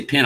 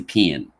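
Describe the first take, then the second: First: Said in the usual way. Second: "pen" with a Southern drawl, vowel sliding toward "pin"; Southern-tinged "pen", the vowel bent and lengthened. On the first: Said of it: "careful when I say pen". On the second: Shown as a demonstration. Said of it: "Southern tinge or a drawl".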